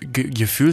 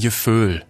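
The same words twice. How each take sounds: First: The word is said in standard German. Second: The word is said in a Rhineland accent. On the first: The speaker calls it wrong. "Da heißt es übrigens dann auch nicht Gefühl" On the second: The speaker calls it right. "sondern Gefühl"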